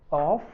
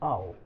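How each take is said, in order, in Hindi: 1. यह पूरा बोला जाता है, f पर खत्म होता है। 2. यह संक्षिप्त रूप में बोला जाता है, हल्के स्वर के साथ। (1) "अब यहाँ ऑफ पढ़ते हैं आप लोग" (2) "जब हम रिदम में पढ़ेंगे तो उसको सिर्फ आओ बोलेंगे"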